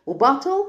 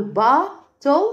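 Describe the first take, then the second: First: Said in the usual way. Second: "باتل" as long با, pause, تل; split into syllables. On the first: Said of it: "وباتل لاني بقول". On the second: Shown as a demonstration. Teacher reviews bottle with pupils, split in syllables. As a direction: pull "باتل" apart in two beats. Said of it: "لاني بقول باتل".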